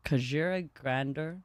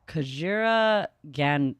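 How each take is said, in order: First: "Kajira Grander" said whole, ka-JEER-a GRAN-der; corrected name. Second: "Kajira Gan-" cut off, fumbling the second half of the name; mispronounced name. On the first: Streamer correcting the god's name after stumbling, "Kajira Grander" said carefully. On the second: Streamer fumbling the god's name while reading, stumbled "Kajira Gan-". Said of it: "I'm pretty sure that was scuffed". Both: Shown as a demonstration.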